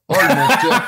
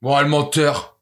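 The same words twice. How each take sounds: First: Laughing accusation. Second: Said in the usual way. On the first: Real, not acted. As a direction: call him a liar while cracking up. Friend accused of lying, laughing.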